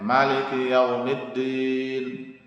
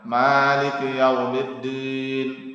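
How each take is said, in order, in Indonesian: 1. Vokal pertama dibaca pendek. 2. Vokal pertama dibaca panjang. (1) "Ada yang dibaca pendek" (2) "Ada yang ma dibaca panjang"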